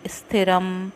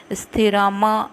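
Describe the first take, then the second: First: स्थिरम ending crisply on m, no final vowel; correct pronunciation. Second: स्थिरम said with an added final vowel, like sthirama; wrong pronunciation. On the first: Teacher demonstrating the right way to say स्थिरम. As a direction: close स्थिरम on a short m. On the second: Teacher demonstrating the wrong way to say स्थिरम. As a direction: say स्थिरम as sthi-ra-ma, stretching the end. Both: Shown as a demonstration. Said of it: "स्थिरम नहीं".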